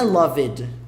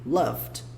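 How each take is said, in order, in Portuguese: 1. A terminação é uma sílaba extra e separada. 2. A terminação não é uma sílaba separada. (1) "Não é loved" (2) "A pronúncia é como se esse E nem tivesse aqui"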